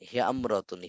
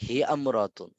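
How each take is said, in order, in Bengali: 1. শুরুর স্বরধ্বনিটি বাদ যায় এবং শব্দ দুটি মিশে যায়। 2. শুরুর স্বরধ্বনিটি বাদ যায় এবং শব্দ দুটি মিশে যায়।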